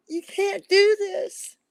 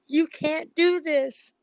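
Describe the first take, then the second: First: Higher, louder, slow voice on the verge of crying; near tears. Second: Each word slow and weighted, "can't" pressed hard; slow emphatic plea. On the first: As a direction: cry out "You can't do this" as the tears come. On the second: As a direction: plead firmly, word by word. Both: Real, not acted. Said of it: "I'm gonna start crying in a minute".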